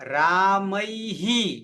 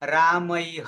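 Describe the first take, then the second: First: A short vowel echoes after the final h. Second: The word ends on a bare h sound. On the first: The speaker calls it right. "તો શું ઉચ્ચારણ કરીશું રામૈહિ" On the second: The speaker calls it wrong. "ઘણા બધા શું કરે છે પ્રાદેશિકમાં"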